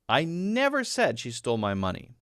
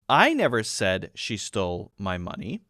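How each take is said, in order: First: The stress falls on the word never. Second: The stress falls on the word I. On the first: It was never said at all. "that's emphasizing the fact that it didn't happen" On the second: Someone else said it. "meaning that maybe other people said it, it wasn't me"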